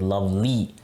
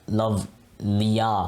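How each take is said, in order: First: It ends in a stretched ee sound. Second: It ends in a consonant ya sound. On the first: The speaker calls it right. "we're using the Y to stretch out the E sound at the end" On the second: The speaker calls it wrong. "we're not saying like love liya"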